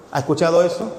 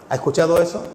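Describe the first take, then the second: No difference in how they are said.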